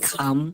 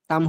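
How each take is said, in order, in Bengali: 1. প্রথম ধ্বনিতে বাতাসের জোরালো ঝলক আছে। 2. প্রথম ধ্বনিতে বাতাসের কোনো ঝলক নেই। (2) "কাম হবে নাকি খাম?"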